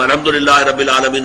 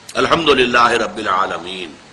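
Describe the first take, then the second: First: It is recited quickly, in one breath. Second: It is recited slowly, with pauses.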